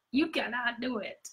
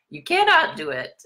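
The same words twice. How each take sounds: First: High and much softer, a far-off taunt; whispery cartoon taunt. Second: High, pushed cartoon taunt; mock taunt. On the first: Cartoon villain repeating the taunt, high and hushed. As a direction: breathe it like a creepy ghost. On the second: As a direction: tease like a cartoon villain. Playful taunt.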